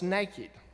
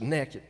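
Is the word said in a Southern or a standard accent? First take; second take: standard; Southern. First: The word is said with a standard accent. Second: The word is said with a Southern accent. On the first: The speaker calls it right. "no, it's naked" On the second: The speaker calls it wrong. "you're so Southern"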